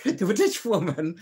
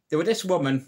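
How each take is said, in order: First: A light, higher Irish lilt; Irish accent. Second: Said in the usual way. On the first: Shown as a demonstration. Restarting the joke for viewers in an Irish accent. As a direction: slip into an Irish accent like Jimmy Cricket. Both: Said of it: "Why am I going Irish?".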